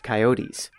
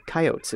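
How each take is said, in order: First: "coyotes" in three syllables, ky-OH-teez; standard pronunciation. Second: "coyotes" in two syllables, KY-oats; local Kansas pronunciation. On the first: Reporter giving listeners the common form, "coyotes" as ky-OH-teez. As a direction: say "coyotes" with a final -eez syllable. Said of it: "or coyotes as folks pronounce it". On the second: Reporter showing how Kansas folks say it, "coyotes" as KY-oats. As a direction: say "coyotes" to rhyme with "oats", stressed on KY. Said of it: "as folks pronounce it around here". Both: Shown as a demonstration.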